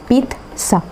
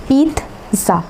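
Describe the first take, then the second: The two takes are said the same way.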